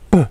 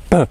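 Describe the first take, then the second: The two takes are said the same way.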